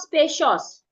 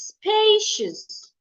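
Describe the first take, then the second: First: The stress is on the second syllable. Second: The stress is on the first syllable. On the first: The speaker calls it wrong. "It's not spacious" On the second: The speaker calls it right. "it's spacious"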